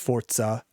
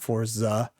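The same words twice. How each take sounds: First: The middle consonant sounds like 'ts'. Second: The middle consonant sounds like a plain 'z'. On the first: The speaker calls it right. "it's Forza, like F O R T Z" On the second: The speaker calls it wrong. "not Forza"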